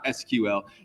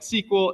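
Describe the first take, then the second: First: It is said as three separate letters. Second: It is said as one two-syllable word. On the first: The speaker calls it wrong. "and not S Q L" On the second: The speaker calls it right. "most real programmers pronounce it like S Q L"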